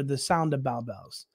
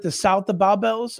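First: "sound" ending in nd. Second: "south" ending in a th sound. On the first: Offering listeners the other word, SOUND with an nd ending. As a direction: say "sound", closing on n and d. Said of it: "is it the south of Bow Bells or". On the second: Asking listeners which word it is, SOUTH with a th ending. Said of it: "or the sound of Bow Bells". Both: Shown as a demonstration.

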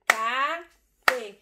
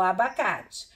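First: "abacate" slow, a... ba... ca... te; syllable by syllable. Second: Said in the usual way. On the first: Shown as a demonstration. Teacher counting four syllables with the class, slow and separated. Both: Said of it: "eu tenho quatro sílabas".

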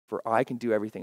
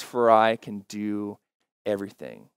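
First: Said in the usual way. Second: Slow reading. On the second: Shown as a demonstration. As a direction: read it slowly so it sinks in. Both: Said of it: "I like to read it a little bit slower".

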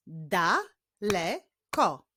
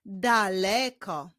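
First: "Daleko" as da, le, ko with pauses; "Daleko" very slowly, syllable by syllable; split into syllables. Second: Said in the usual way. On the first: Shown as a demonstration. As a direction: clap out "Daleko" in three slow beats.

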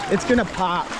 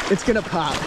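No difference in how they are said.

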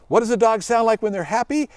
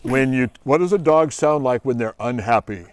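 First: Higher happy voice. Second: Low unhappy voice. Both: Shown as a demonstration. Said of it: "They're all yippy and barky".

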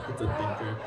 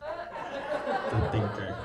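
First: Said in the usual way. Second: It's a thinker said high and slow, stretched out; high drawn-out musing. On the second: Shown as a demonstration. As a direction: savor It's a thinker as a mock revelation.

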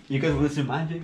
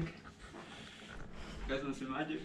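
First: Said in the usual way. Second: Slow hushed whisper. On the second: Shown as a demonstration. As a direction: breathe it out like a secret. Repeats line as whisper.

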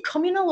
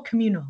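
First: Communal with the stress on COM; stress on first syllable. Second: Communal with the stress on MU; stress on second syllable. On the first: Interviewer checking a word with the guest, communal stressed on the first syllable. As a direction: say communal as COM-yoo-nal, front-stressed. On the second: Interviewer offering the other option, communal stressed on the second syllable. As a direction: say communal as kuh-MYOO-nal. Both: Shown as a demonstration. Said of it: "is it communal or communal".

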